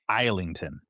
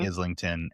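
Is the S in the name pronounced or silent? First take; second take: silent; pronounced. First: The S in the name is silent. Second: The S in the name is pronounced. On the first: The speaker calls it right. "no S, like an isle" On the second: The speaker calls it wrong. "I've been saying"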